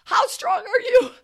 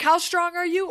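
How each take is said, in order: First: Louder trainer shout. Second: Trainer's shout. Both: Retold or imitated. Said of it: "He's like".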